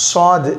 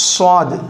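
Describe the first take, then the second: Both takes have the same delivery.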